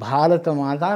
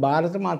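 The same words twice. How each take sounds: First: The first consonant is said with aspiration. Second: The first consonant is said without aspiration. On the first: The speaker calls it right. "భారత మాత అనాలి" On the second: The speaker calls it wrong. "భారత మాత అంటున్నావు"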